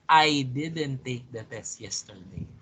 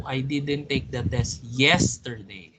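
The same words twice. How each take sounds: First: Strong "I" at the start, falling afterwards; stress on I. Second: "yesterday" punched at the end of the sentence; stress on YESTERDAY. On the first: Teacher hinting it was not you, stress on "I". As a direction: put the weight on "I". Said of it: "if you're putting the stress on I". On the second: Teacher hinting at some other day, stress on "yesterday". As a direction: save the weight for "yesterday". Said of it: "Putting now the stress on another word". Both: Shown as a demonstration.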